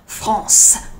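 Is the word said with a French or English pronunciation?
French. The word is said with a French pronunciation. "not quite as beautiful as in French"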